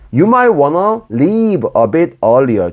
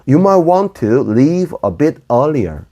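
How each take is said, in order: First: 'Want to' is reduced to 'wanna'. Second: 'Want to' is said as two full words.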